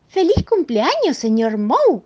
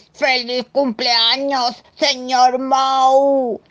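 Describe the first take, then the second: First: Felicitación aguda y fuerte, a ritmo normal; voz de señora alegre. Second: Grito lento, agudo y fuerte; canturréalo a gritos, muy despacio; gritando. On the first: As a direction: felicita con alegría chispeante. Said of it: "dijo la señora Moe". (voz alegre de señora) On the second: (grito festivo y alargado) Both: Acted.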